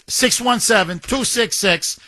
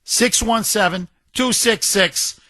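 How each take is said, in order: Both takes have the same delivery.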